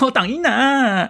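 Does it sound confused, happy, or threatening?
happy. It sounds happy and delighted, with a laugh.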